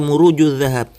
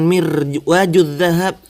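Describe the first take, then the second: First: The first word begins with the sounds muruj. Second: The first word begins with the sounds mirwaj. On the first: The speaker calls it right. "seharusnya dibaca" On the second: The speaker calls it wrong.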